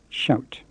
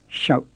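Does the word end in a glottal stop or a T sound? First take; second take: T sound; glottal stop. First: The word ends in a released T sound. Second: The word ends in a glottal stop. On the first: The speaker calls it wrong. "and not shout" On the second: The speaker calls it right. "it's got to be shout"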